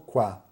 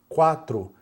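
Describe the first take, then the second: First: Only the first syllable of the word is said. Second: The word is said with two full syllables. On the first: The speaker calls it right. "a gente costuma pegar só o quá" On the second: The speaker calls it wrong. "E o quatro, principalmente, é o que mais atrapalha"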